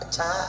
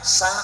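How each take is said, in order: First: The syllable starts with a ch sound. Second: The syllable starts with an s sound. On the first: The speaker calls it wrong. "Sa nggak bisa" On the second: The speaker calls it right. "Coba nak bilang nak"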